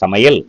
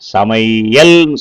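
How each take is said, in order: First: The ai vowel is clipped short. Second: The ai vowel is held long and full. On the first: The speaker calls it right. "குறைந்து ஒலிக்குது" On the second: The speaker calls it wrong. "சமையல் சொல்றதில்ல"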